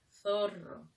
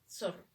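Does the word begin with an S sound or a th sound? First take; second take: th; S. First: The first sound is like English th. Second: The first sound is a plain S. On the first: This is the standard Castilian pronunciation. "Debería ser zorro. Ese es el castellano" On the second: This is how the local speakers say it. "nosotros decimos zorro, con S"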